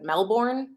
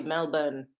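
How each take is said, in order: First: Melbourne with a fully sounded R, rising; heavy Chicago accent. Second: Melbourne as MEL-bun, no R; local Australian pronunciation. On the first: Makeup artist checking her own heavy accent on Melbourne, Chicago accent. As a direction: say Melbourne in broad Chicago vowels, R pronounced. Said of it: "with a heavy accent". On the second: Correcting herself for a viewer from Melbourne, Melbourne said MEL-bun without R. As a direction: say Melbourne lower, second syllable reduced to "bun". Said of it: "It's probably Melbourne". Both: Shown as a demonstration.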